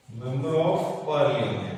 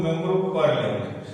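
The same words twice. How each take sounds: First: Very slow, lower, word by word; slow dictation. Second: Said in the usual way. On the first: Shown as a demonstration. Teacher repeating MP's full form for students, slow dictation. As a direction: stretch out each word as if dictating.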